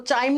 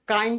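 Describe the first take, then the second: First: The word begins with a ch sound. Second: The word begins with a k sound. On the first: The speaker calls it wrong. "इसको चाइम नहीं बोलोगे" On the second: The speaker calls it right. "काइम pronounce करते हैं हम"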